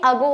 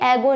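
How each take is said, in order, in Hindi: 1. पहला स्वर 'uh' जैसा सुनाई देता है। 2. पहला स्वर 'eh' जैसा सुनाई देता है। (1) "ये अगो होता है" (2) "ये एगो नहीं होता"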